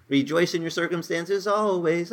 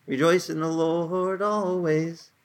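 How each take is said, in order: First: "Rejoice in your circumstances always" asked as a raised, questioning misquote; doubtful wrong quote. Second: "Rejoice in the Lord always" slow, with weight on "Rejoice"; solemn slow scripture correction; emphatic correct quote. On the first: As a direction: pose the wrong version as a question. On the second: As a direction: read it slowly and deliberately as the true verse. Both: Shown as a demonstration. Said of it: "No, no, it says".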